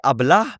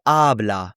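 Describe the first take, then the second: First: Habla with the last A stressed, rising; wrong take: habLA, stress pushed to the end; stress on the final syllable. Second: Habla with the first A stressed, falling; stress on the first syllable. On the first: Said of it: "you don't say habla". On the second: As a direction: say HA-bla, leaning on the first vowel. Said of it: "the stress is on the beginning vowel". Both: Shown as a demonstration.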